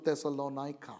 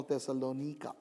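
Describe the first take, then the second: First: Thessalonica with "NIGH-ka" at the end; variant pronunciation. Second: Thessalonica with "NEE-ka" at the end; variant pronunciation. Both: Shown as a demonstration. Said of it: "how you would want to pronounce it".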